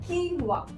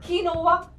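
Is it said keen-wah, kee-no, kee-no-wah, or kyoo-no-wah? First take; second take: keen-wah; kee-no-wah. First: It is said with two syllables, keen-wah. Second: It is said with three syllables, kee-no-wah.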